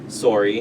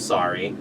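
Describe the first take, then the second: First: It is said with a Canadian accent. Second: It is said with an American accent. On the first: "or sorry" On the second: "instead of sorry"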